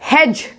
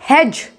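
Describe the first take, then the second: The two takes are said the same way.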